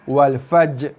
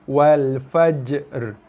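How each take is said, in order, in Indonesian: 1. Bunyi r di akhir dihilangkan. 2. Bunyi j dan r terdengar jelas terpisah. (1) "tanpa ra" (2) "Asing-asing bunyi berserta dengan sifat masing-masing"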